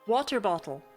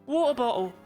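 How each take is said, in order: First: It is said carefully, every letter enunciated. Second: It is said in a put-on English accent. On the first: "I enunciate! I say my letters" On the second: "These are English accents you want from me!"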